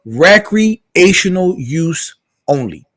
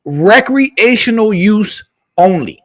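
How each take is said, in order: First: Slow, deliberate punchline, each word spaced; drawn-out catchphrase. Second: Slow punchline. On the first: Men judging women who lead with independence, slow deadpan verdict. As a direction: drag out recreational use only like a verdict. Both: Acted.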